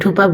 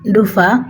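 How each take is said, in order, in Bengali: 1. মাঝের ব্যঞ্জনটি 'p' ধ্বনি। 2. মাঝের ব্যঞ্জনটি 'f' ধ্বনি। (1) "শুদ্ধ ভাষায় ধুপা বলছি" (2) "আমাদের সিলেটি ভাষায় বলে আর কি ধুফ ধুফা। যাই হোক এখানে ফ উচ্চারণ হয়"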